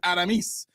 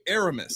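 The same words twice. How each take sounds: First: The name is said with Spanish-style pronunciation. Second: The name is said with English-style pronunciation. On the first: This is how it is said in Spanish. "in Spanish is Aramis" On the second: This is how the name's owner says it. "I say Aramis"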